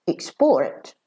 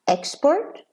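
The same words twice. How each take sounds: First: "export" stressed on PORT, weak quick "ex"; verb stress. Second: "Export" stressed on EX, high start; noun stress. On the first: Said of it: "and as a verb". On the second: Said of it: "as a noun". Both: Shown as a demonstration.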